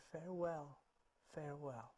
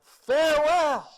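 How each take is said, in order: First: Very soft, fading echo; little echoing voice. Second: High, drawn-out dying scream. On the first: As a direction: answer tiny and faint from the woods. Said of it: "a little voice came from the woods". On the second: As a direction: bellow a last goodbye, long and loud. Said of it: "he screamed out". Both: Acted.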